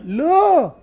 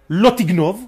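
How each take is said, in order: First: There is a pause between the two words. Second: The two words run together without a pause.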